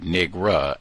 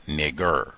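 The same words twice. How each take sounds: First: Southern drawl nigra, ending in uh. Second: Nigger with a hard r at the end, lower; hard-r version. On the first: Host showing how the agent said it, Southern nigra. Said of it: "he probably said". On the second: Host contrasting the word with a hard r ending. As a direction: end nigger on a clear r sound. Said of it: "and not". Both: Shown as a demonstration.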